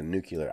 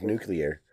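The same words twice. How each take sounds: First: "nuclear" said as new-kyuh-ler; nucular pronunciation. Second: "nuclear" as new-clee-er; careful "nuclear" with clee in the middle; standard pronunciation. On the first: Co-host showing his mispronunciation, "nuclear" said as new-kyuh-ler. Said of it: "I know I've said that". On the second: Co-host naming his problem word, "nuclear" as new-clee-er. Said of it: "I have a problem with nuclear". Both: Shown as a demonstration.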